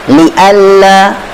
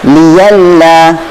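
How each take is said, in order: First: It has a glottal stop in the middle. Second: It has a y sound in the middle.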